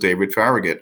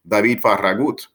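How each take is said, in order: First: The surname is said with an English pronunciation. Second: The surname is said with a Spanish pronunciation. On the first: The speaker calls it wrong. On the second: The speaker calls it right.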